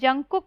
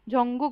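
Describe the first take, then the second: First: The second syllable starts with a hard k sound. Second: The second syllable starts with a soft g sound. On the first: The speaker calls it wrong. "हम लोग इंग्लिश में जंगकुक बोलते हैं" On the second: The speaker calls it right. "[name] बोलते हैं हम लोग उनका नाम"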